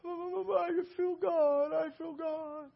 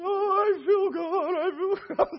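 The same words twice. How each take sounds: First: High, soft, very slow quavering moan; imitated tearful wail. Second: High, stretched-out tearful cry; imitated crying wail. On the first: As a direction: draw it out high and quiet, as if overwhelmed. Acts out overwhelmed woman. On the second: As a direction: wail it slowly at full voice, mimicking her. Acts out overwhelmed woman again.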